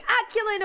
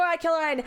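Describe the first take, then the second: First: "Aquiline" likely ending like "lean"; first name variant. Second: "Aquiline" likely ending like "line"; second name variant. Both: Shown as a demonstration. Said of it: "however you wanna pronounce it".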